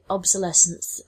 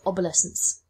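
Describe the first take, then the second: First: The start does not sound like 'obelisk'. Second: The start sounds like the word 'obelisk'. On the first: The speaker calls it right. "it should have been" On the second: The speaker calls it wrong. "at the beginning I pronounced it"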